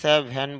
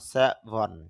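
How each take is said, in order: First: Seven is said in the casual everyday way. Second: Seven is said in the careful standard way. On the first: The speaker calls it wrong. "যদিও সেভেন বলি" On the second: The speaker calls it right. "এর শুদ্ধ উচ্চারণ সেভেন"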